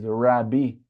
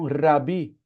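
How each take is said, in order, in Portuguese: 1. O R é uma aproximante suave, como em inglês. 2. O R é um toque leve, como em português. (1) "Em inglês, eles vão falar rabi, é o R deles" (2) "Rabi é um R fraco, como se fosse o nosso de areia"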